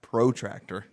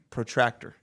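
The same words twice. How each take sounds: First: The first vowel is a long O. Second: The first vowel is a short O. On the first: The speaker calls it wrong. "Not protractor. That's like a professional tractor" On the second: The speaker calls it right. "You're putting you're making the vowel either long or short"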